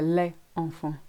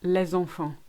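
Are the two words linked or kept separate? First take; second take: separate; linked. First: The two words are kept separate. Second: The two words are linked together. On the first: The speaker calls it wrong. "Notice we don't say" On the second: The speaker calls it right. "Same for"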